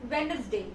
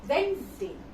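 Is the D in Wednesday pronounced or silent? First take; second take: pronounced; silent. First: The D sound in the middle is pronounced. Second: The D sound in the middle is silent. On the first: The speaker calls it wrong. "We usually say this this word as Wednesday" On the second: The speaker calls it right. "It is Wednesday. The D here will be silent"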